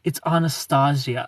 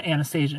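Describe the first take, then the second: First: Anastasia said "ah-nuh-STAH-zee-uh"; girlfriend's correction. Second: Anastasia said "an-uh-STAY-zhuh"; usual pronunciation. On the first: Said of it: "and she's like". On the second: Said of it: "I kept calling her". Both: Retold or imitated.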